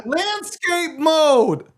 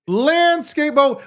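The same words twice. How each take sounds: First: Exasperated drawn-out. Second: Emphatic repeat. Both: Real, not acted.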